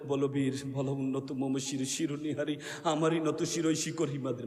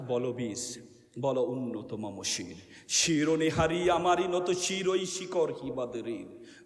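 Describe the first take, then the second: First: It is recited in a limp, unheroic manner. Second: It is recited in a forceful, heroic manner.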